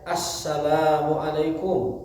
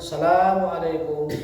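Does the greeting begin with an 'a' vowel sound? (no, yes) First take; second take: yes; no. First: It begins with an 'a' vowel before salam. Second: It begins directly with salam, no vowel before. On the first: The speaker calls it right. "dibacanya ada alifnya" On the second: The speaker calls it wrong.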